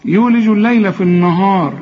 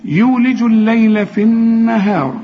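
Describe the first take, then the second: First: النهار with thick, backed vowels; wrong heavy letters. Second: Light, thin n and h in النهار; light letters. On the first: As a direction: mistakenly make n and h heavy in النهار. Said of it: "خطأ، ها،". (تفخيم خاطئ في النهار) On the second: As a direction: recite النهار with thin, fronted vowels. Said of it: "كل نون في القرآن مرققة". (ترقيق النون والهاء في النهار) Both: Shown as a demonstration.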